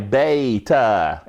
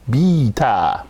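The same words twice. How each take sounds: First: The first syllable sounds like 'bay', British style. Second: The first syllable sounds like 'bee', American style.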